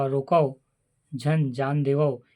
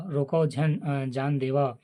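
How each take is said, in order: First: रोको set apart by a clear pause, then झन जान देवो together; pause after रोको. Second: रोको झन grouped together, a break before जान देवा; pause after झन. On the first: Teacher showing how punctuation changes meaning, pause after रोको. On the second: Teacher showing the opposite meaning, pause after झन. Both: Shown as a demonstration. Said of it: "दूसरे और तीसरे में विराम चिन्ह".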